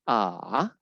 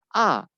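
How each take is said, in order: First: The pitch dips down, then rises again. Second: The pitch falls sharply from high to low. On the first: "dia akan turun dulu boleh lagi" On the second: "itu turun dia. ... Ditekan"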